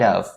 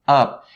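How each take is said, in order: First: The word ends with a v sound. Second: The word ends with a p sound. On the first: The speaker calls it right. "make sure that you have the right movement for your lips for the V sound" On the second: The speaker calls it wrong. "they ended up saying up, up"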